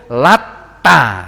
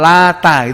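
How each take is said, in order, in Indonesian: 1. Bunyi t-nya panjang dan ganda. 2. Bunyi t-nya pendek dan tunggal. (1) "ada bacaan yang membacanya itu latta gitu" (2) "Kalau tadi bacanya afara'aitumul lata gitu ya"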